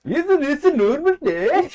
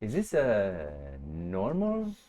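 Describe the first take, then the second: First: High, loud, singsong mock-Swedish; Swedish chef. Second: Put-on low, slow, restrained Scandinavian accent; toned-down Swedish accent. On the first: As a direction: go full cartoon Scandinavian accent. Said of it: "Swedish chef". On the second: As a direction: dial the mock-Swedish back to half, drawing it out. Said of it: "Now turn it down to, like, one half".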